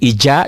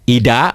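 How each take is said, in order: First: The middle consonant is a 'j' sound. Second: The middle consonant is a plain 'd' sound. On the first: It is said the way a Betawi speaker would. "ija juga bukan, ija orang Betawi" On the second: It is said the way a Sundanese speaker would. "ida bukan, Ida orang Sunda"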